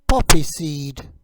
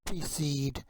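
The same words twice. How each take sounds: First: Said in the usual way. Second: Whispered "Poppy seed." unvoiced and soft; whispered word preview. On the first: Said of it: "You say it". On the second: Shown as a demonstration. Word read before model.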